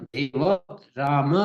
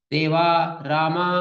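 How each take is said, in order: First: देव and राम said short, with no extra vowel at the end; correct short ending. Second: देवा रामा with the final आ held long and open; open-throat vowels. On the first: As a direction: cut देव राम off clean. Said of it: "ऐसा बोलते हैं". (सही छोटा उच्चारण) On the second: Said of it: "ऐसा बोलना पड़ेगा". (गला पूरा खोलकर देवा रामा) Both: Shown as a demonstration.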